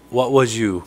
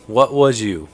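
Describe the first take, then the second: No difference in how they are said.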